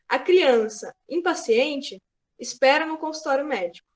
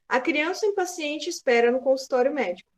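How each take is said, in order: First: Impaciente is said with extra emphasis. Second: Impaciente gets no special emphasis.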